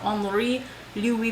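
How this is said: The name is said with a French accent.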